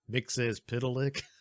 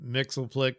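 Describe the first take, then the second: First: The name is said with five syllables. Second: The name is said with three syllables. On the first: The speaker calls it right. "His name is Mixes Pitalik" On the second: The speaker calls it wrong. "I always called him Mixelplick because of Super Friends, but of course that is not the proper pronunciation"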